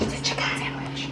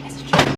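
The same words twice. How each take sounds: First: Unvoiced ASMR whisper. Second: Said in the usual way. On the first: Shown as a demonstration. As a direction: breathe it into the mic. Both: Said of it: "I wanna do an A S M R".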